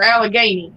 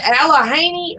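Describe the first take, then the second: First: "Allegheny" with a hard G, al-uh-GAY-nee; alternative pronunciation. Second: "Allegheny" with an H sound, al-uh-HAY-nee; alternative pronunciation. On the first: Asking which pronunciation is correct, "Allegheny" said al-uh-GAY-nee. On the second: Asking which pronunciation is correct, "Allegheny" said al-uh-HAY-nee. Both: Shown as a demonstration. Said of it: "different people pronounce it differently".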